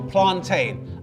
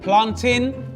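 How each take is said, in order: First: The last syllable is a long "tain". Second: The last syllable is a short "tin". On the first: The speaker calls it wrong. "The pronunciation of tain in a suffix is for verbs" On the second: The speaker calls it right. "Planting is pronounced tin"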